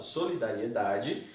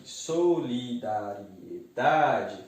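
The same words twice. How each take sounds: First: Said in the usual way. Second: Solidariedade slowly split into syllables, DA drawn out. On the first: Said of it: "Ao dividir a palavra". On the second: Shown as a demonstration. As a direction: stretch out solidariedade syllable by syllable, leaning on the stressed DA. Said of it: "ela se prolonga".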